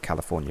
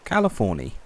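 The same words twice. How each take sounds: First: The name is pronounced in the ordinary way. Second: The name is pronounced in an odd, folksy way. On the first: "naturally call it California" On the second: "would just say it in a weird way"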